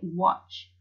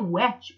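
First: The vowel sounds like the one in 'hot'. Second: The vowel sounds like the one in 'cat'. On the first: The speaker calls it right. "We say watch. That's a very funny word because the A actually makes an os sound" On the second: The speaker calls it wrong. "But we don't say watch"

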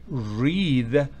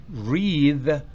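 No difference in how they are said.

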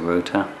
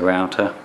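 First: The word is said with a British accent. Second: The word is said with an American accent. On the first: "In English, we would say router" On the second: "if you're American accented, you might want to say router"

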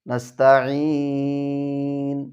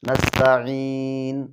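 First: The long vowel is held for a medium length. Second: The long vowel is held only briefly. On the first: "তাওয়াসুত" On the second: "আমি সর্বপ্রথম আদায় করছি কসর"

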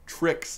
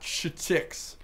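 First: It begins with a tr sound. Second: It begins with a ch sound. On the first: The speaker calls it right. "Tricks, not ch-tix" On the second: The speaker calls it wrong. "you said ch instead of tr"

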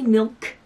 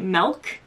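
First: The vowel sounds like the 'i' in 'bit'. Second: The vowel sounds like the 'e' in 'bed'. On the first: The speaker calls it right. "so I'm trying to say milk. M-I-L-K" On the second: The speaker calls it wrong. "My family has called it milk. M-E-L-K"

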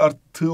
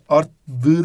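First: The suffix begins with a t sound. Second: The suffix begins with a d sound. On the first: The speaker calls it right. "olduğu için ünsüz benzeşmesi var" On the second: The speaker calls it wrong. "değil"

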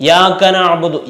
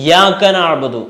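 The two takes are said the same way.

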